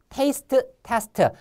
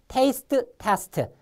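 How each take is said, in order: No difference in how they are said.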